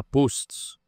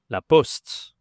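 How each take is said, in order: First: "post" with a closed, long O, wrong for French. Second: "poste" with a short, open O; open French O. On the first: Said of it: "la prononciation ici, ce n'est pas post". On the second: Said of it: "c'est le son O". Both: Shown as a demonstration.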